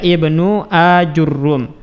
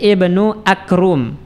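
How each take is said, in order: First: A 'u' follows the j, and the r is doubled. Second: A k replaces the j, and no vowel follows it. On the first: "jim di dhammah, ra di dhammah dan di tasydid" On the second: "jimnya kita ganti dengan huruf kaf"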